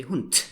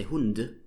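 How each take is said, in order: First: "Hund" ending in a crisp t; devoiced final D. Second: "Hund" ending in a voiced d with a little release; voiced final D. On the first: Teacher showing the correct German word, final t. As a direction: say "Hund" as "hoont", with a released t. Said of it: "you speak it with a T". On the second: Teacher showing what Germans never say, voiced d. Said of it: "you would never say Hund". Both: Shown as a demonstration.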